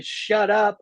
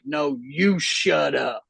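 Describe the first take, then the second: First: Higher-pitched mock yell at normal volume; retold neighbor's yell. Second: "you" leaned on in a slow comeback; stress on YOU. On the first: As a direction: imitate the neighbor hollering at dogs. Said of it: "and then that guy". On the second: Retold or imitated. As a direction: hit the word "you", drag out the retort. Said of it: "and I'm like".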